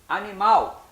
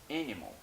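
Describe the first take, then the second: First: It is pronounced with Portuguese sounds. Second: It is pronounced with English sounds.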